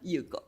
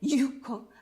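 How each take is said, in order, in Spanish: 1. La u es una vocal más ligera, al estilo japonés. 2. La u es una vocal plena, al estilo español. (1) "sino Yuko" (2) "no me llamo"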